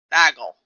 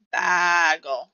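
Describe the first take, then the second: First: Short, low, punched "Bagel"; own pronunciation. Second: "Bagel" with a long stretched first vowel; drawn-out pronunciation. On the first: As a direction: say "Bagel" quickly and firmly, dropping in pitch. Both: Shown as a demonstration. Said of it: "keep saying bagel how I say bagel".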